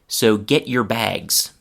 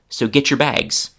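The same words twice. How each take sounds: First: 'Get' and 'your' are said as separate words. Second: 'Get' and 'your' blend into one changed sound. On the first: "So here it is without the change" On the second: "then I will speak it with the change"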